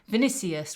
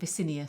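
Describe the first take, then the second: First: The n sound comes before the s sound. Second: The s sound comes before the n sound. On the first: The speaker calls it right. "I keep getting the N and the C mixed up" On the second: The speaker calls it wrong. "rather than Vicinius"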